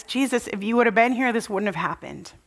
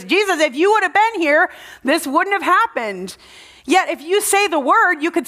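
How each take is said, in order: First: Softer, quick, fading into tears; weeping Mary. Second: Higher, urgent plea to Jesus; upset Martha. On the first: Mary at Jesus' feet, softly weeping out the words. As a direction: let the words sink away in grief. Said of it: "and she weeps". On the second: Martha telling Jesus, upset and pleading higher. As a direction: press him like a grieving sister. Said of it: "he sees that Martha is upset". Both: Retold or imitated.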